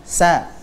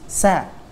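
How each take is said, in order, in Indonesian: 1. Bunyinya tipis dan ringan. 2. Bunyinya tipis dan ringan.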